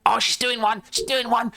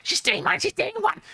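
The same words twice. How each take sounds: First: Mice squeaking. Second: High squeaky Cockney mice; Cockney mice squealing as they scarper. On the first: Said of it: "they say, like". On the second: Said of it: "in Squeaky Cockney". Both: Acted.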